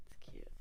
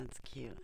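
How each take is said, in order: First: Whisper. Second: Said in the usual way. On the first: Real, not acted. Showing the blanket, repeated whispered.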